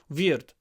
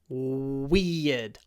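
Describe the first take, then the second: First: The first sound is close to a v. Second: The first sound is a clear w. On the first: The speaker calls it wrong. "If you don't, ... you will say v" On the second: The speaker calls it right. "Open your mouth, everything will be fine"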